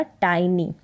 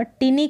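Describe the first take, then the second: First: "टाइनी" with a long eye vowel, tie-nee; correct pronunciation. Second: "टिनी" with a short i, as tinny; mispronunciation. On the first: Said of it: "इसका उच्चारण होगा". (टाइनी, आइ वाला सही उच्चारण) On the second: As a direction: say "टिनी" with short i in the first syllable. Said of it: "टिनी करके इसको ना पढ़ें". (टिनी, छोटी इ वाला गलत उच्चारण) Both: Shown as a demonstration.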